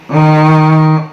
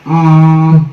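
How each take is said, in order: First: The m is a light, partial nasal hum. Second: The m is a full, firmly closed nasal. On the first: The nun is only partly turned into mim. "Jadi nggak sepenuhnya mim" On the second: The nun is completely turned into mim. "Kalau sepenuhnya mim"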